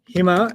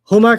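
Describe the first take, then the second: First: The first vowel is an 'i' sound. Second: The first vowel is a 'u' sound. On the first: "it just sounds happier sometimes" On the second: "Huma can sometimes sound like Hima"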